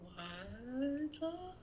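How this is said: It is said in a spooky ghost voice.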